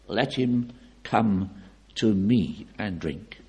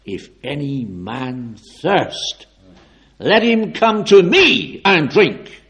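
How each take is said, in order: First: Unhurried, deliberate and unshouted; measured restatement with gaps between phrases; slow, measured quotation. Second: Slow proclamation building to a high, loud shout; loud solemn shout. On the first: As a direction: say it slowly at an everyday volume. Same quote repeated without the shout. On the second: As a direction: let the voice ring out with authority. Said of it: "suddenly shouted out with a loud voice". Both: Acted.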